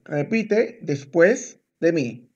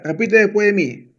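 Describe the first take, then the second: First: Word by word, with clear gaps; slow it right down for a learner; slow and measured. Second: Said in the usual way. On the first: Shown as a demonstration. Teacher telling student to repeat after them, slow and measured.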